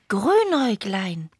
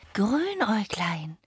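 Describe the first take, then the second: First: The name is said in a reproachful tone. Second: The name is said in an admiring tone. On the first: The speaker is blaming the one addressed. The speaker calls it wrong. "Immer so vorwurfsvoll" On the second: The speaker admires the one addressed. The speaker calls it right. "Ich wünschte mir mehr Bewunderung"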